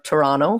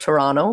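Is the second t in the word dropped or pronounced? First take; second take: dropped; dropped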